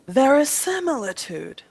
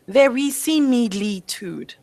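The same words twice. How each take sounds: First: The i vowels sound like a short i. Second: The i vowels sound like a long ee. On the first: The speaker calls it right. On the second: The speaker calls it wrong.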